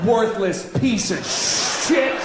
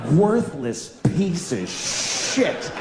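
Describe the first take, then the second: First: Slow hammed-up yell, "Worthless" stretched and rising; mock shout. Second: "Worthless" drawn out slowly, rising at the end; slow stress on Worthless. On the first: Comedian acting out yelling in an elevator, mock shout. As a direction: bark it at a stranger as a joke. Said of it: "turn right to their face and go". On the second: Shown as a demonstration. Comedian mulling over an insult he said, slow and rising. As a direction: savour each word of "Worthless piece of shit". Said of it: "what an indictment".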